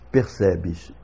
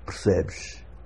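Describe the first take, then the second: First: All three vowels are clearly heard. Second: The first and last vowels nearly disappear. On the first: This is how Brazilians say it. "nós outros brasileiros pronunciamos percebes, e as três vogais se ouvem" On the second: This is how people in Portugal say it. "em Portugal, é corrente a pronúncia percebes, em que nós temos uma primeira sílaba com a vogal quase totalmente desaparecida"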